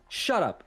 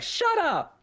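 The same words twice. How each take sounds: First: Slightly raised, quick retort as the wife; retold wife's retort. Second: Put-on very high little-kid squeal of a retort; imitated little girl. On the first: Wife answering her husband's snarky remark, mildly raised mock retort. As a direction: imitate a wife telling her husband to shut up. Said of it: "and she was like". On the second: Young niece copying her aunt, high-pitched little girl imitation. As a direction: parrot it back in a tiny high child's voice. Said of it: "the little girl was like".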